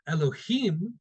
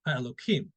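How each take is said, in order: First: The middle consonant is an H sound. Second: The middle consonant is a K sound. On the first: It refers to judges. "if we were to read it with the actual how it's spelled" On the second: It refers to God. "I'm pronouncing it with the K sound here because it's it's a name of God"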